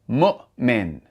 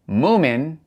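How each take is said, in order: First: A brief throat catch separates the two syllables. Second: The two syllables run together without a break. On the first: The speaker calls it right. "there's a glottal stop" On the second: The speaker calls it wrong. "It's not"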